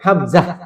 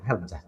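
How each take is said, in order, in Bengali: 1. ধ্বনিটি টেনে লম্বা করে বলা হয়। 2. ধ্বনিটি ছোট, কোনো টান নেই। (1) "হামজা বলা যাবে না" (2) "এই হামজাতে কোনো টান দেওয়া যাবে না"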